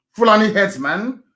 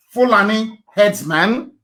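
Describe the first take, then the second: First: Said in the usual way. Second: Slow, deliberate Fulani herdsman; spoken very slowly. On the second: Shown as a demonstration. Urging listeners to Google it, said very slowly. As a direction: spell out Fulani herdsman slowly so they can type it. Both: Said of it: "I will speak very slowly".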